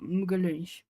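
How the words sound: It is said with a European Portuguese accent. "That's how it sounds for Portuguese from Portugal"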